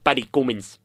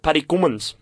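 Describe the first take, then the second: First: Paddy Cummins in a light South African accent. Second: Paddy Cummins said as KUM-minz, plain Australian; "Cummins" with a short oo vowel, KOOM-inz; plain pronunciation. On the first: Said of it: "that'd be like Paddy Cummins". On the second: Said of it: "that's how you pronounce it". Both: Shown as a demonstration.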